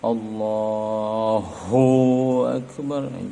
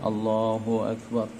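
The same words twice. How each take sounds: First: The syllable hu is pressed hard and heavy. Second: The syllable hu is said lightly and briefly. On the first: The speaker calls it wrong. "jangan terlalu ditekan-tekan" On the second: The speaker calls it right. "ringan saja. Allahu akbar gitu"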